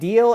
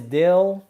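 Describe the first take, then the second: First: The vowel is a long 'ee' sound. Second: The vowel is a short 'ih' sound.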